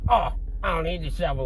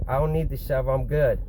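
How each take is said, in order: First: Higher-pitched mocking mimicry. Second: Said in the usual way. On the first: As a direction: parrot it back mockingly. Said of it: "like, mocking me and shit". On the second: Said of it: "I told him".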